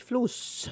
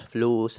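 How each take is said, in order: First: High squeaky mock voice; فلوس squeaked very high and soft. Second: Said in the usual way. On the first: Friend answers "money" in a mock voice.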